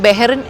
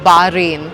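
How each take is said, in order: First: The name begins with 'beh', then 'rin'. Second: The name begins with 'bah', then 'rain'. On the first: The speaker calls it wrong. "ഞാൻ actually ബെഹറിൻ എന്നാണ് പറയുന്നത്" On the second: The speaker calls it right. "That actually it's ബാറെയിൻ"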